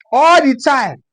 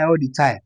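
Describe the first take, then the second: First: "All the time" pitched up and punched; emphatic repeat. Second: Said in the usual way. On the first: Shown as a demonstration. Comedian owning up to constant lying, "All the time" said emphatically higher. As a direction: lift and lean hard on "All" in "All the time".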